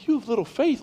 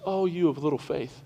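First: Mock disbelief, pitched higher with a questioning rise; incredulous echo. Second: A hint of Jesus, soft and calm, softer than his talk; lightly voiced gentle Jesus chiding the disciples; Jesus gently rebuking. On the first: Pastor retorting to Jesus's words, playful disbelief. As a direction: repeat it back like you can't believe it. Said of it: "I'm going". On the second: Jesus to the frightened disciples, mild soft rebuke. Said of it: "Jesus gets up and goes".

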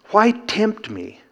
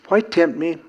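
First: High slow question. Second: Said in the usual way. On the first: Acted. Question repeated after cough.

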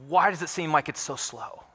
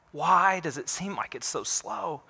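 First: Said in the usual way. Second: Drawn-out question, pitched a little high; slow, weary questioning. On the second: Acted. Believer asks God why justice lags, slow questioning. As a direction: stretch the question out slowly.

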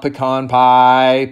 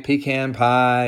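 First: "pecan pie" said as pih-KAHN, stress on the second syllable; the rejected take of "pecan pie", pih-KAHN pie; mock a pronunciation of "pecan" as pih-KAHN; wrong pronunciation. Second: "pecan pie" said as PEE-can, stress on the first syllable; preferred pronunciation. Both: Shown as a demonstration. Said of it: "not pecan pie".

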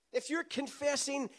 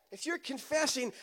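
No difference in how they are said.

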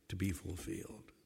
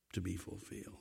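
First: Low and very soft to be fulfilled; soft close. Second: Soft echo. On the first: Preacher ending the thought quietly. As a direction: fade it out gently. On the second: Preacher echoing fulfilment in a hush. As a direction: still lower, near silent To be fulfilled. Pastor echoes. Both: Acted.

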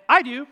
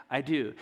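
First: Bright, louder and higher offhand I do; a quick, eager I do to a friend asking for gum; casual eager yes. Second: A hushed, sincere I do before the altar; solemn vow. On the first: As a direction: toss off I do like offering gum. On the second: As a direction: say I do like a serious wedding vow. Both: Shown as a demonstration. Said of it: "the same words, two different contexts".

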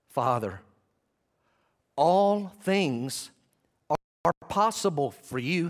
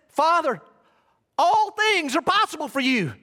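First: Slow appeal with long pauses; measured, spaced-out prayer; deliberate prayerful appeal. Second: High, loud cry to God; impassioned shouted prayer; calling out loudly. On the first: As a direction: set each phrase apart, voice lifting after the first word. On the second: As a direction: call it out at full preaching force. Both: Acted. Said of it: "calling out loudly".

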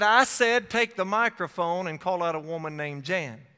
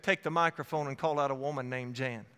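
First: An inner voice that won't take no; insistent repeat. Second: Low, even instruction; quietly firm, lower repeat of the command; inner voice's command. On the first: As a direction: repeat the command emphatically, hitting "I said" hard. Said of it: "It repeated itself". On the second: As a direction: state the order calmly, pitched down. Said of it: "The voice said". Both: Retold or imitated.

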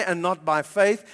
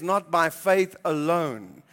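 First: "And not by faith" with a lift on FAITH; a questioning tone on "faith"; wrong reading. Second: "Not by faith alone" slow, falling on FAITH; correct reading. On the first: Preacher showing the misreading to the church. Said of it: "It doesn't say". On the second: Preacher giving the true verse to the church, slow and firm. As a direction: settle it firmly, "faith alone". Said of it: "It says". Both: Shown as a demonstration.

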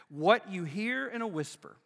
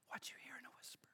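First: Said in the usual way. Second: Breathy stage whisper, voice dropped right out; hushed rabbi's whisper. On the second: Shown as a demonstration. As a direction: whisper it like a secret passed to a disciple.

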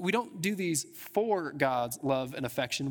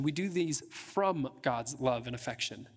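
First: "for" set apart and leaned on; stress on FOR. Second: "from" slowed and set apart; slow, contrastive weight on "from"; stress on FROM. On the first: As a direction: make "for" the word being rejected. Contrasts for with from. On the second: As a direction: land deliberately on "from" as the correction. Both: Real, not acted.

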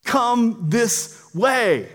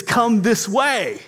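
First: Very slow, higher, each word drawn out; calling voice. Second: Higher, slow calling voice. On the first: Voice guiding someone out of a fire, long drawn-out call. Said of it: "The voice says". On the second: Rescuer calls to someone trapped in fire, slow guiding call. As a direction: call out slowly to guide someone. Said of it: "then you hear a voice". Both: Acted.

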